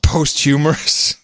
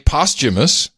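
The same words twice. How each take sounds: First: The word has a garbled, nonstandard pronunciation. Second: The word has its standard pronunciation. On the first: This is how it actually came out. The speaker calls it wrong. "but it came out posthumous" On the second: This is what was intended. The speaker calls it right. "I think he meant to say posthumous"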